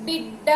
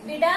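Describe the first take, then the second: First: బిడ్డ with a held double డ్డ; said with vattu. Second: బిడ with a single light డ; said without vattu. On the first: Teacher asking children to observe the contrast, stressed double బిడ్డ. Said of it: "ఒత్తు ఇచ్చిన తర్వాత ఎలా పలుకుతున్నాము". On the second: Teacher asking children to observe the contrast, plain single-consonant బిడ. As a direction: say బిడ short, consonant not doubled. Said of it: "లేకుండా రాసినప్పుడు ఎలా పలుకుతున్నాము". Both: Shown as a demonstration.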